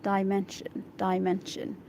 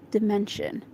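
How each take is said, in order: First: Dimension said as dye-MEN-shun; corrected pronunciation. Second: Dimension said as dih-MEN-shun; uncertain first reading. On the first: Shown as a demonstration. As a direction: say dimension with "dye" first, repeated carefully. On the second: Real, not acted. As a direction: say dimension with a short i. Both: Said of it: "Let's see this word".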